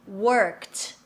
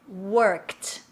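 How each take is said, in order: No difference in how they are said.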